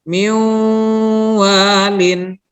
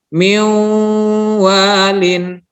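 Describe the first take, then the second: No difference in how they are said.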